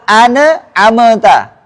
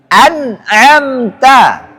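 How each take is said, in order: First: Extra vowels are inserted between the consonants. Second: The consonants are closed with no extra vowels. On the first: The speaker calls it wrong. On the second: The speaker calls it right.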